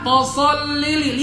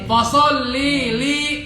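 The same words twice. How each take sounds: First: Both 'li' vowels are said short. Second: Both 'li' vowels are drawn out long. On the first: The speaker calls it right. "lihat li-nya pendek, dua-duanya pendek" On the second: The speaker calls it wrong. "dua-duanya panjang tuh"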